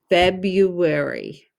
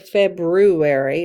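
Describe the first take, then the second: First: The R after the B is silent. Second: The R after the B is pronounced. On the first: The speaker calls it right. "the R is silent" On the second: The speaker calls it wrong. "we don't really say February"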